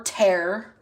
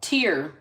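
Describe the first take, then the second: First: "tear" rhyming with air; tear as in ripping. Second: "Tear" rhyming with beer; tear as in crying. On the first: Reader offering another reading of the word, "tear" said like "tair". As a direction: say "tear" with an open eh sound, like ripping paper. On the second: Reader sounding out a word from the dice, "Tear" said like "teer". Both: Shown as a demonstration. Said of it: "depending on how you read it".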